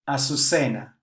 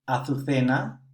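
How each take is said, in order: First: The z is pronounced as an s sound. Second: The z is pronounced as a th sound. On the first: "Let's pronounce these words as in Latin America" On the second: "the Z and the C are pronounced differently in Spain"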